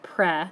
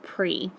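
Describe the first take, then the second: First: The syllable has a short preh sound. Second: The syllable sounds like the prefix pree. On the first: The speaker calls it right. "You say it pre" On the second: The speaker calls it wrong. "instead of pre"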